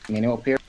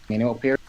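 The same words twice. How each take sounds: No difference in how they are said.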